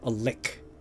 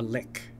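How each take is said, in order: First: The word ends with a k sound. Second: The same.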